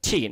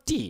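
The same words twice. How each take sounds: First: 'Tea' with a puff of air on the t; aspirated t. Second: 'tea' with a hard t and no puff; unaspirated t. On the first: Teacher correcting learners, 'Tea' with aspirated t. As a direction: say 'Tea' as 'thee' with a breathy English t. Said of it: "Tea, not tea". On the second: Teacher mimicking learners' mistake, 'tea' with unaspirated t. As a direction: say 'tea' like Bengali 'ti', no aspiration. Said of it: "not tea". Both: Shown as a demonstration.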